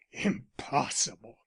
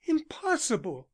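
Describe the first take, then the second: First: Lower, slower, bitter "Impossible" thrown back; he spits her word back at her; fierce echo. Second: Higher, quick dismissive "Impossible"; disbelieving Elsie. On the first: Arnold turns on Elsie, slow bitter echo of "Impossible". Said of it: "he echoed". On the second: Elsie dismissing Arnold's fear, higher disbelieving "Impossible". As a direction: she waves the idea away. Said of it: "He turned on her fiercely". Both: A narrator's reading.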